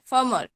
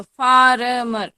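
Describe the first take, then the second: First: फर्मर said short as "faa-mar"; फर्मर quick, with a silent first R; corrected फर्मर, middle R dropped. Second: फार्मर drawn out loudly with a sounded R in the middle; फार्मर stretched, rolling out the middle R; everyday spelled-out फार्मर. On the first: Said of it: "होता क्या है?". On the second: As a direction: say फार्मर slowly as "faa-ra-mar". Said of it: "हम क्या बोलते हैं इसको?". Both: Shown as a demonstration.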